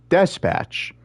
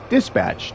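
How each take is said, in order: First: The second syllable has the vowel of 'bet'. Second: The second syllable has the vowel of 'cat'. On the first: The speaker calls it wrong. "not dispatch" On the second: The speaker calls it right. "it's it's dispatch"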